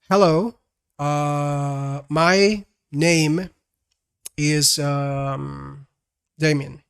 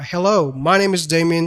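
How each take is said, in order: First: Long gaps and fillers break up the words. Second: The words flow smoothly without long gaps. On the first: The speaker calls it wrong. "A very bad pace would be like" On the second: The speaker calls it right. "That has a very normal and natural pace"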